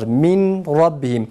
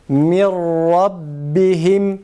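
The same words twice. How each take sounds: First: The n sound is pronounced before the r. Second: The n sound is merged into the r. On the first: The speaker calls it wrong. "tecvid bilmeyen kardeşlerimiz, Kur'an okuyucuları min rabbihim şeklinde okurlar" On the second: The speaker calls it right. "nunu okumadan e, mimi ra'ya bağlıyoruz, idgam yapıyoruz"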